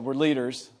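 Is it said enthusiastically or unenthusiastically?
enthusiastically. It is said with enthusiasm.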